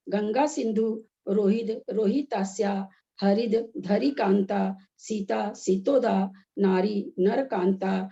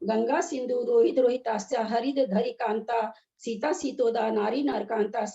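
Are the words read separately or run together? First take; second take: separately; together. First: The words are read apart, split at their joins. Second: The words are read joined together without breaks. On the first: "अलग अलग करके बताया" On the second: "एक साथ पढ़ेंगे तो कैसे"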